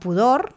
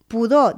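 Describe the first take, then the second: First: The final R is clearly pronounced. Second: The final R is not pronounced. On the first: It means modesty or aversion of the spirit. "pronunciada la R" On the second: It means a bad smell. "amb R muda"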